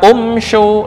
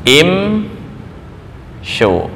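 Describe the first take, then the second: First: The word begins with an 'u' vowel. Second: The word begins with an 'i' vowel. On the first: The speaker calls it wrong. "anggapannya dhammah um show. Nah, itu kurang kurang tepat" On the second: The speaker calls it right. "ya begini"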